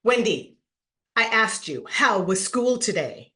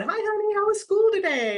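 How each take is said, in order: First: Firm, level, no-nonsense repeat; the mom voice that means you're in trouble; stern mom. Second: High, sugary motherly voice; sweet mom greeting. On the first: Mom catching her kid skipping school, stern and firm. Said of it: "tone of voice changed". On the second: Mom greeting her kid home from school, sugary high. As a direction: sound like a mom who already knows. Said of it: "when your mom's tone of voice changed". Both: Retold or imitated.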